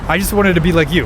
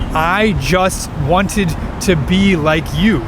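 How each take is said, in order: First: The words are run together quickly and reduced. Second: Each word is said separately and clearly. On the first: "He says" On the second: "But he doesn't say it like that"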